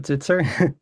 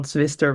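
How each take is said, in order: First: Zwitser with t before the s; corrected Dutch pronunciation. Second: Zwister with s before the t; mistaken pronunciation. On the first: Guest correcting host on his surname, Dutch pronunciation "Zwitser" with ts. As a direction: say "Zwitser" with a ts in the middle. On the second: Guest showing host the mistaken pronunciation, "Zwister" with st. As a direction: say "Zwister", swapping ts to st. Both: Shown as a demonstration. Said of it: "not Zwister, but Zwitser".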